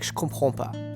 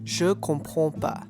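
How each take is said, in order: First: The phrase is said very fast and run together. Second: The phrase is said at a normal, careful pace. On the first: "sometimes people will say this very fast" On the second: "you can say je comprends pas"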